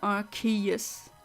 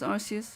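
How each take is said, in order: First: The c is said as a k sound. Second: The c is said as an s sound. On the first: The speaker calls it right. "I said it again" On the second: The speaker calls it wrong. "automatically goes to S as a as the pronunciation"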